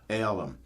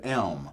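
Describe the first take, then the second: First: The word is said as two syllables. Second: The word is said as one syllable. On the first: "the southern pronunciation of the word elm, where they just stick in another syllable" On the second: "the word elm"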